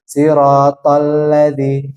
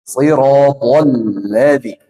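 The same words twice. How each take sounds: First: The consonants are light, without a raised tongue. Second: The consonants are heavy, with a raised tongue. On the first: The speaker calls it wrong. "ringan banget ini. Jadi dia tidak isti'la" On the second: The speaker calls it right. "Harusnya sirotol ladzi ... karena dia ada huruf isti'la"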